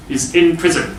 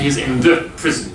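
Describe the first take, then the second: First: Said in the usual way. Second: The in he's in the prison given a small lift; light stress on the. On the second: Shown as a demonstration. Teacher showing the wrong form with the article stressed. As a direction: mark the wrong the by leaning on it slightly. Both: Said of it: "We don't say".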